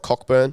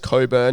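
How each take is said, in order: First: The name is said with a k sound. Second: The name is said with no k sound. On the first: The speaker calls it wrong. "not Cockburn" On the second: The speaker calls it right. "saying that it's Coburn"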